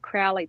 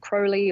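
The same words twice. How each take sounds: First: The first syllable rhymes with cow. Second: The first syllable rhymes with go. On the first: This is the Australian way to say the name. "That's how Australians would pronounce his name" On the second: This is the British way to say the name. "I know some British people might say Crowley"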